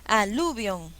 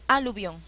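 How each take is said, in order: First: The stress is on the second syllable. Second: The stress is on the first syllable. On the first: "yo no conozco esa palabra"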